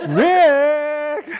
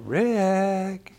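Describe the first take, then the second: First: The name is said loudly. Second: The name is said quietly.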